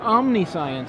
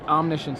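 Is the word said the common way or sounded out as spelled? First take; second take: sounded out; common way. First: The word is sounded out the way it's spelled. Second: The word is said in its common pronunciation.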